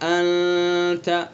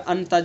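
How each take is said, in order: First: The n sound is hidden and nasalized. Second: The n sound is pronounced clearly. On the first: The speaker calls it right. "अंत इख्फ़ा होगा" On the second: The speaker calls it wrong. "इज़हार कर दिया, अंत जल्दी से पढ़ दिया"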